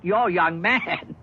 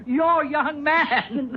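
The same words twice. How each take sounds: First: Taken aback. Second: Laughing, voice jumping much higher; incredulous laugh. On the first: Stunned at her fiancé news. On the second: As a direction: laugh it out in disbelief. Laughs at her young man. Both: Acted.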